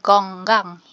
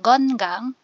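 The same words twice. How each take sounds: First: The first syllable ends in an ng sound. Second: The first syllable ends in an n sound. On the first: "ang magiging tunog is iyeng. Kaya naging" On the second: "Instead na"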